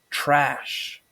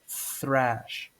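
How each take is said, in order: First: It begins with a plain t sound. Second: It begins with a breathy th sound. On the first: The speaker calls it wrong. "normally people pronounce thrash as trash" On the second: The speaker calls it right. "it's actually pronounced thrash"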